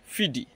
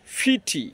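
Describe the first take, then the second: First: It has a soft American d-like sound. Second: It has a crisp British t sound.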